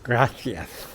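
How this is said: The middle consonant is a lisped th sound. This is how it is said in the Barcelona area. "with the lisp, gracias"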